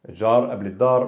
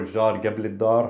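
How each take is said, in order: First: The qaf is said as a glottal stop. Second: The qaf is said as a hard g. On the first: "can either be pronounced a" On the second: "or ga"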